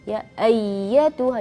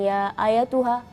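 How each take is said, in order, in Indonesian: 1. Bunyi y dibaca dobel dengan sedikit naik nada suara. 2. Bunyi y dibaca pendek dan tunggal, tanpa naik nada suara. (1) "ada sedikit tanjakan suara" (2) "jangan ya ayatuha"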